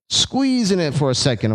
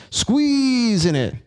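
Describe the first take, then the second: First: Said in the usual way. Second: Squeezing said slow and much higher; stress on squeezing. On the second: Shown as a demonstration. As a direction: draw out the word Squeezing, high and long. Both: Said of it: "I like to emphasize the word squeeze".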